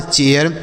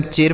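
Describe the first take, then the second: First: चेयर in two syllables, "che-yar"; "e-ya" pronunciation. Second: चेर as one syllable with a plain long "e"; one unbroken vowel in चेर; mispronounced चेर. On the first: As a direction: glide from "e" into "ya" before the r in चेयर. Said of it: "उच्चारण ए य के रूप में होगा". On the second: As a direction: say चेर wrongly, with no "ya" glide before the r. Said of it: "यहाँ पर भी इसे ऐसे नहीं पढ़ना है". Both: Shown as a demonstration.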